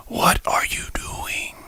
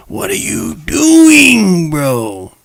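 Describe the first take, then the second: First: Slow, breathless whispered disbelief. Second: Long, slow, high drawn-out cry of disbelief; stunned disbelief. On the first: Vlogger stunned by a gunman, whispering slowly. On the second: Vlogger reacting to a gunman, slow high disbelief. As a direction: stretch it out high, you can't believe it. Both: Real, not acted.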